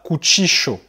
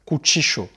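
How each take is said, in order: First: The double L sounds like 'sh'. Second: The double L sounds like 'sh'.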